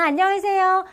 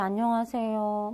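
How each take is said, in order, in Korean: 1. 밝고 경쾌한 목소리로 인사했어요. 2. 우울하고 기운 없는 목소리로 인사했어요. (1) "밝게 인사하는 게 좋죠" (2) "이 세상 정말 살기 싫은 네, 그런 표정과 목소리로"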